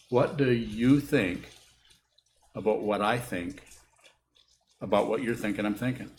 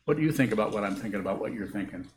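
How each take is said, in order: First: It is said very slowly. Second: It is said at a fast pace.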